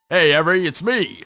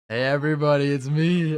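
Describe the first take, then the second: First: It is said in a put-on Spamton voice. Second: It is said in a natural voice.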